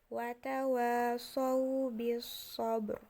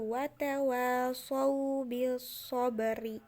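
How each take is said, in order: First: The last word ends on a bare r. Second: The last word ends with a short i vowel. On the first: "ketika diwakafkan menjadi" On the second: "Contoh yang kedua itu"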